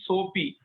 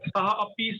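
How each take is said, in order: First: The words are joined, visarga turned into o. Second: The words are said separately, ending in visarga.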